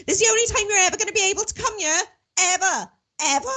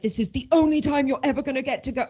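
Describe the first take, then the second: First: Much higher, fast, put-on mother's voice; high, quick mimic of a mother insisting; mum's voice. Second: Said in the usual way. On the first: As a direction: rattle it off like an emphatic mum. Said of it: "I gotta do my mum's voice". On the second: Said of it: "my mum said".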